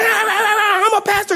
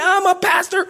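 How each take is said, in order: First: Slow, high, laughing self-parody; mocking himself. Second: High, loud indignant declaration; indignant shout. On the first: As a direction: drag it out, laughing at your own outburst. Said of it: "I'm like". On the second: Retold or imitated. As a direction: throw your title at her in outrage. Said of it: "I was pretty upset".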